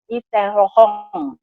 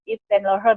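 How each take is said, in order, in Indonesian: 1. Nama itu diucapkan dengan aksen Prancis. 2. Nama itu diucapkan dengan aksen Inggris. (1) "kalau kita bahasa Perancis udah beda lagi bacanya" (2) "kalau bahasa Inggris kan oh Yves Yves Saint Laurent gitu bacanya"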